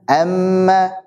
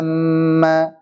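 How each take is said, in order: First: The first vowel is kept short. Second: The first vowel is drawn out long. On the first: The speaker calls it right. "langsung saja" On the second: The speaker calls it wrong. "jadi panjang gitu"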